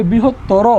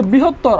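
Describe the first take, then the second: First: "বৃহত্তর" ending in an open -tto-ro; correct pronunciation. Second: "বৃহত্তর" ending in a closed -ttor; written form. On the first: Teacher gives the spoken form, "বৃহত্তর" with final o sounded. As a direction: finish "বৃহত্তর" on a clear round o. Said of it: "হবে". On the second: Teacher cites the word as spelt, "বৃহত্তর" ending on r. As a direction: stop "বৃহত্তর" on the r, no final vowel. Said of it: "আছে". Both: Shown as a demonstration.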